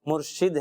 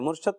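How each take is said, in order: First: The second syllable has a short 'i' vowel. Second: The second syllable has a short 'a' vowel. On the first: The speaker calls it right. "मुर्शिद है" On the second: The speaker calls it wrong. "मुर्शद तो दुरुस्त तलफ़्फ़ुज़ नहीं है"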